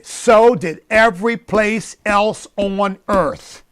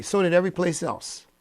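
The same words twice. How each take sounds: First: Slow and louder, leaning on "So did every place else on earth"; for emphasis. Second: Said in the usual way. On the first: Shown as a demonstration. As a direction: drive the point home, word by word. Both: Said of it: "Let me just say that again for emphasis".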